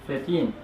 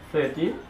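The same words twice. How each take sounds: First: The stress is on the last syllable. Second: The stress is on the first syllable. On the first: The speaker calls it right. "they usually stress the last syllable for the teens" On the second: The speaker calls it wrong. "if you stress the first syllable for the teens"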